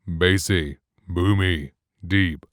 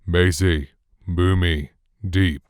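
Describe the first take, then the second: First: The low bass is cut off sharply. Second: The low bass is fully present and unfiltered. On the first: "bass cutoff enabled" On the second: "completely neutral and flat"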